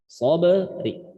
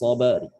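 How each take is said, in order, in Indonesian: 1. Kata ini berakhir dengan vokal i yang lemah dan lembut. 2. Kata ini berakhir di huruf r tanpa vokal.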